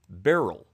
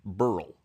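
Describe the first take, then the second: First: The name is said as two syllables, like 'berry-l'. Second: The name is said as one syllable, rhyming with 'curl'. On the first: "this pronunciation guide say it should be pronounced as Beryl" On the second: "I always pronounce the name Burl, like Milton Berle"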